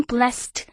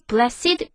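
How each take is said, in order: First: "blessed" said as one syllable, blest. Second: "blessed" said in two syllables, bless-id. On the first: Teacher models the usual one-syllable blessed. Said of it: "원래 blessed라고 발음이 되는데요". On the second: Teacher shows the fronted two-syllable blessed. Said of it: "강조하기 위해서 blessed라고 발음을 해요". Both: Shown as a demonstration.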